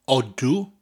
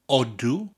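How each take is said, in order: The two takes are said the same way.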